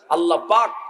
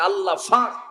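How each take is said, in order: First: It is said with standard Bengali pronunciation. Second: It is said with Noakhali dialect pronunciation.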